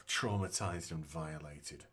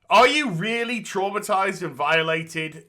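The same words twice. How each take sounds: First: Scoffing mutter. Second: Sarcastic. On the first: Scoffing repeat of the claim. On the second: Mocking the claim of trauma. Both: Retold or imitated.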